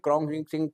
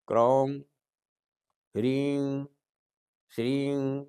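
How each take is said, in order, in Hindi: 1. अक्षर जल्दी-जल्दी निकाले जाते हैं। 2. अक्षर धीरे और शांति से बोले जाते हैं। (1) "जल्दबाज़ी में ... ये नहीं चलेगा" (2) "शांति दिल से ... इस तरह से इसका जाप होगा"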